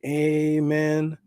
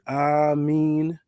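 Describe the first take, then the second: First: It is said the way Christians say it. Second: It is said the way Muslims say it. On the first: "So Christians say Amen" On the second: "Muslims say Amin"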